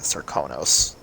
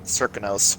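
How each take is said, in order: First: The name is said in a Karnakan accent. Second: The name is said in a Dunwall accent. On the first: "in actual Karnaka they say Zirconos" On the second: "the Dunwall accent says Zirconos"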